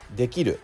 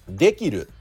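First: The pitch is high on ki, then falls. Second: The pitch is high on de, then falls. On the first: The speaker calls it right. "まず正しいイントネーションはできるです。" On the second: The speaker calls it wrong. "できるでにアクセントが来て、"

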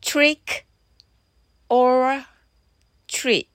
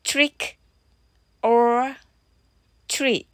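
No difference in how they are said.

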